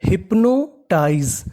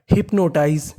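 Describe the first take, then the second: First: hypnotise stretched out slowly, each syllable spelled clearly. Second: Said in the usual way. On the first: Shown as a demonstration. Teacher spelling a new word for students, drawn out slowly. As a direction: draw out hypnotise for learners. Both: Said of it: "तो meaning बनी".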